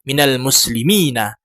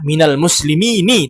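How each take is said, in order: First: The final n is followed by an a vowel. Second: The final n is followed by an i vowel. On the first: The speaker calls it right. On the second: The speaker calls it wrong. "jangan membaca"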